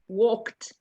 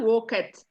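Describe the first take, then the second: First: The word is said as a single syllable. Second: The ending is said as an extra syllable. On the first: The speaker calls it right. "You don't say the E" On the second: The speaker calls it wrong. "Not walk it. It's a silent E. We don't say that"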